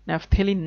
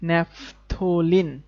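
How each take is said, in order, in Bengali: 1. মাঝের সিলেবলে e স্বরধ্বনি আছে। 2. মাঝের সিলেবলে o স্বরধ্বনি আছে। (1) "না" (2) "এটার উচ্চারণ কিন্তু ন্যাফথলিন"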